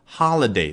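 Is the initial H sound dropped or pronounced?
pronounced. The word starts with an audible H sound.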